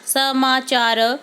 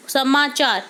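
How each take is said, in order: First: समाचार drawn out slowly, syllable by syllable; slow dictation. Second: Said in the usual way. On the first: Shown as a demonstration. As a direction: spell out समाचार slowly for the class. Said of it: "teacher reads answer slowly". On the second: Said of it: "teacher reads answer".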